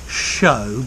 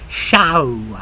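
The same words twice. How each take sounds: First: The vowel is a plain standard o sound. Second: The vowel glides widely like ow. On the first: The speaker calls it wrong. "not show" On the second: The speaker calls it right. "but show, ow"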